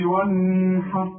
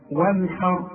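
First: وانحر with the noon drawn out into a hum; sung, stretch a ghunna on the ن of وانحر; wrong nasal hum. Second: وانحر with a short, clear noon and no hum. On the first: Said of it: "ما تقولش". (sung, وانحر بغنة طويلة على النون بالغلط) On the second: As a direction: go crisply from ن to ح in وانحر. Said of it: "ما تغنش". (وانحر بإظهار النون من غير غنة) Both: Shown as a demonstration.

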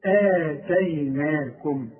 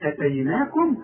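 First: آتيناكم very slow, long opening aa; elongated madd. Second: أتيناكم with a short opening a; plain short hamza at the start of أتيناكم; no elongation. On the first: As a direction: draw out the first vowel of آتيناكم. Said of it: "وبعدها المد بتاعها تقول إيه". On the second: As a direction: say أتيناكم briskly, first vowel unstretched. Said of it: "يبقى ما عندكش مد". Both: Shown as a demonstration.

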